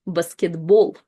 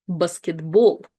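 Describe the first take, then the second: No difference in how they are said.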